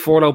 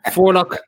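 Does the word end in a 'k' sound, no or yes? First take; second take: no; yes. First: The word ends in an open 'low' sound. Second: The word ends in a 'lock' sound. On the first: The speaker calls it wrong. "if you're starting to use this forelow bollocks, don't" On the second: The speaker calls it right. "So Forlock, Torlock, that's the way it rolls"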